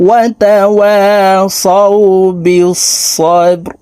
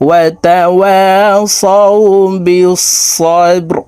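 Both takes have the same delivery.

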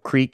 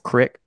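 First: The vowel sounds like 'eek'. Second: The vowel sounds like 'ick', Minnesota style.

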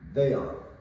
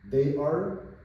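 First: The words are joined into one short syllable. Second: Two full words are said separately. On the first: "These are the short forms" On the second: "These are the short forms"

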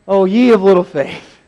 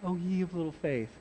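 First: It is said in an angry tone. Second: It is said in a pious tone.

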